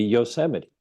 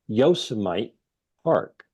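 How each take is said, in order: First: Yosemite said as yoh-SEM-ih-tee; four syllables in Yosemite, stressed on SEM; usual pronunciation. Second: Yosemite said as YOH-suh-mite; mispronounced Yosemite. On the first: Shown as a demonstration. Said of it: "I've always known that to be". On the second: Retold or imitated. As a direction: rhyme the end of Yosemite with Vegemite. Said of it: "I've always known that to be Yosemite".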